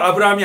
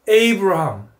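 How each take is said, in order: First: The name begins with an 'ah' vowel. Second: The name begins with an 'ay' vowel. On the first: The speaker calls it wrong. "아브라함도 아브라함이 아닙니다" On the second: The speaker calls it right. "한번 해보십시오"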